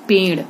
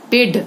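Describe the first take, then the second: First: Said in the usual way. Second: पेड़ with a hard "d" stop; wrong consonant. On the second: Shown as a demonstration. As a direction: end पेड़ on "d" with no flap. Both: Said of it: "गलत".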